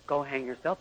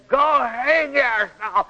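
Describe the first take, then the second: First: Soft, lower go hang yourself; mild brush-off. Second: Slow, high go hang yourself with hang stretched; harsh retort. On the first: Wife a little hurt brushing husband off, soft and light. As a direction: toss it off gently, yourself rising. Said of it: "her spirit's closed just a little". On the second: Wife fully shut off telling husband to go hang himself, harsh and slow. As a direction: bite down on "hang" and drag it. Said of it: "that means her spirit's closed quite a bit". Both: Shown as a demonstration.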